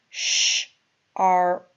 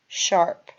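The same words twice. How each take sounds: First: It is said slowly, split into parts. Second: It is said quickly as one word.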